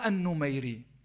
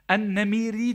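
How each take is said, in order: First: The name is said with a 'u' vowel. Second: The name is said with an 'e' vowel. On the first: "Numeyri daha kuvvetli geldiği için ben öyle telaffuz ettim" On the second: "En-Nemiri diye de geçer rivayetlerde"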